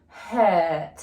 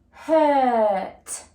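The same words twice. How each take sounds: First: Said in the usual way. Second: "Hurt" drawn out, louder and higher; stretched word. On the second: Shown as a demonstration. Teacher stretching the word for phonics practice, drawn out and loud. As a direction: stretch "Hurt" so each sound is heard. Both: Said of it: "I'm going to stretch it".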